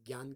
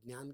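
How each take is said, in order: First: It is pronounced the way Hindi speakers say it. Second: It is pronounced the way Marathi speakers say it. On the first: "Hindi वाले इसे ज्ञान कहते हैं" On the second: "Marathi में ज्ञान कहते हैं"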